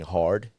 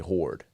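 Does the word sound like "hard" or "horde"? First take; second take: hard; horde. First: The vowel is a plain open "ar" sound. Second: The vowel is rounded like "or" in slang. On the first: "Instead of saying hard" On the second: "you say horde"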